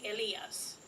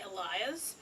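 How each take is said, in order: First: The name is pronounced with Spanish vowels. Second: The name is pronounced with English vowels. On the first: "But if you ask me in Spanish, I would be like Elias" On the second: "If I'm using English, I'm most likely gonna say Elias"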